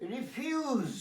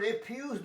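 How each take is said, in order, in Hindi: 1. शब्द का अंत z ध्वनि से होता है। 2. शब्द का अंत s ध्वनि से होता है। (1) "রিফিউজ হবে প্রত্যাখ্যান করা" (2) "রেফিউজ দন্তস্ব বলো, তাহলে হয়ে যাবে জঞ্জাল"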